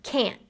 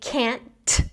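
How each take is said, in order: First: The final t is held without release. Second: The final t is fully released with a burst. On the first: "I'm just going to say can't" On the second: "instead of saying can't"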